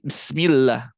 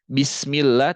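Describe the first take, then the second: First: The b sound is faint with a half vowel. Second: The b sound is clear with a full vowel. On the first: The speaker calls it wrong. "tapi jadi Bismillah" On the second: The speaker calls it right. "yang harusnya Bismillah"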